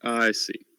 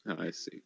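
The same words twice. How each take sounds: First: Said in the usual way. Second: Soft, trailing murmur; quiet. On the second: Real, not acted. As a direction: let it fade under the breath. Repeats the phrase, trailing off.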